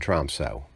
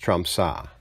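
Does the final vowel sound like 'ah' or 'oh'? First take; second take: oh; ah. First: The word ends in a long 'oh' vowel. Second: The word ends in an 'ah' vowel. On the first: The speaker calls it wrong. "I always pronounce the last O with the slash through it as a long O" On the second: The speaker calls it right. "but it's really ah, so it's Tromsø"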